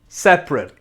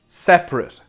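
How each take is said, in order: First: It is pronounced as the adjective form. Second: The same.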